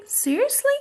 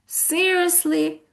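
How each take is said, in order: First: Very high, sarcastic question. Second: Slow, raised, drawn-out "seriously"; disbelieving. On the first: Teacher shows students the tone, sarcastic. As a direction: pitch it way up in mock disbelief. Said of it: "I'm being sarcastic". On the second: Teacher gives another tone for students, disbelieving. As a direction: stretch the word out in disbelief. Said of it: "or if I say". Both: Shown as a demonstration.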